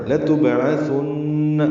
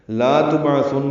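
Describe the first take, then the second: First: لتبعثن with a short lam, chanted very slowly, nasal hum on the nun; correct pronunciation. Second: لا تبعثن with the lam wrongly lengthened to لا; wrong pronunciation. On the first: Teacher giving students the correct reading, very slow. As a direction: recite لتبعثن with a quick lam, then hold the doubled nun. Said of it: "اسی لام کو لمبا نہیں کرنا". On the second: Teacher showing students the wrong reading, lam lengthened. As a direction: show the mistake: stretch لا in لا تبعثن. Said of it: "نہیں پڑھنا". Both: Shown as a demonstration.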